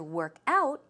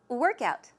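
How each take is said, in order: First: The stress falls on the second part. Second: The stress falls on the first part. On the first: It is a verb meaning to exercise. "as a verb, to work out means to exercise" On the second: It is a noun meaning exercise. "So the stress goes where? On the first syllable"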